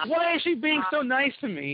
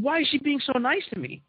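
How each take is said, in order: First: Laughing, much higher, half suspicious; chuckling disbelief at her kindness. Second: Baffled question. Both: Retold or imitated. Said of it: "So suspicious".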